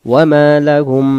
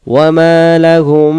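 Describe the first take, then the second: First: ওয়া মা লাহুম with a plain short m, no humming nasal hold; ওয়া মা লাহুম with the m unlengthened, no nasal hum; without nasal ghunna. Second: ওয়া মা লাহুম with the doubled m held as a nasal hum, lips closed; ওয়া মা লাহুম, the m lengthened into a humming ghunna. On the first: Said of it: "গুণনা ছাড়া যখন আমরা বলবো". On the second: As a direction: hum the m of লাহুম through the nose with lips pressed. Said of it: "যখন গুণনাটা করব ঠোঁটে ঠোঁটে মিলে হুম". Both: Shown as a demonstration.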